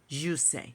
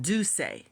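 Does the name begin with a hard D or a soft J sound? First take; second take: soft J; hard D. First: The name begins with a soft J sound. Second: The name begins with a hard D sound.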